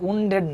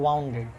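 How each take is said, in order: First: The first vowel is an 'oo' sound. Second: The first vowel is an 'ow' sound. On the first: The speaker calls it wrong. "এটা উন্ডেড না" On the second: The speaker calls it right. "এটা ওয়াউন্ডেড"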